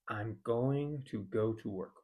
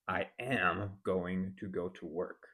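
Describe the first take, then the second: First: It uses "I'm" and a full "going to". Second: Every word, "I am going to", is said fully. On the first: "instead of saying" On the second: "or worse"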